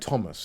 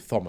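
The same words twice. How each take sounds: First: It begins with a plain T sound. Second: It begins with a TH sound. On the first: The speaker calls it right. "We don't pronounce the th. So it's one of the, it's, it's like Thomas" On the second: The speaker calls it wrong. "You don't say Thomas"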